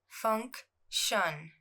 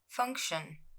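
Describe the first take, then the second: First: The word is said slowly and drawn out. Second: The word is said at normal speed. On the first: "I'll pronounce it slowly" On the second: "then at normal speed"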